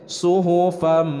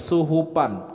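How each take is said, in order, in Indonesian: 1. Bunyi s pertama adalah s yang berat dan emfatik. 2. Bunyi s pertama adalah s yang biasa dan ringan. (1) "Kalau ini huruf so" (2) "Kalau suhupam itu adalah huruf sin"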